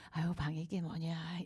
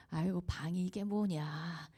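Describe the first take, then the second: First: Soft whispered elegant chiding with no anger; gentle, not angry. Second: Slow mild reproach. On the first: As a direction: ask about the messy room as gently as possible. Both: Retold or imitated. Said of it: "우아한 말투로 화내지 않고".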